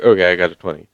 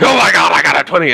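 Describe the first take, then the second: First: Offhand, unexcited claim of a twenty; deadpan casual announcement of a roll; casual fake report. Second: High, loud thrilled shout over a natural twenty; excited yell. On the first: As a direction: read off the roll calmly, like a cheater covering up. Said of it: "'Cause you know whenever somebody gets a twenty". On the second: Retold or imitated. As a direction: burst out like you just rolled a crit. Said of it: "I'm sorry if that was really loud".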